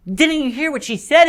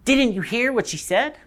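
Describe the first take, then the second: First: High-pitched, urgent accusing question; upset. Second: High, restrained disbelief; disbelieving. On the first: Polly confronts Diggory over his choice, high and upset. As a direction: repeat it much higher, really confronting. Polly repeats it, escalating quarrel. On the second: Polly questions Diggory's choice, restrained disbelief. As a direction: ask it high but held back, incredulous. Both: Acted.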